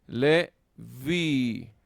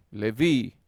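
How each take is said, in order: First: "Le vi" in two long, loud, separated syllables; slow, emphatic sounding-out of "Le ... vi"; syllable-by-syllable stress demo. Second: "le vi" joined up, loud, landing on "vi"; emphatic "le VI", last syllable stressed; stress on final syllable. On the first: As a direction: hold "Le", then hold "vi" louder. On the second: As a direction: say "le vi" as one word, punching "vi". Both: Shown as a demonstration. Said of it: "entonces llevará el acento".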